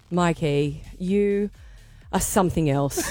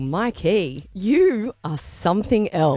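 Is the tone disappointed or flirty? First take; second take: disappointed; flirty. First: It sounds disappointed. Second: It sounds flirty.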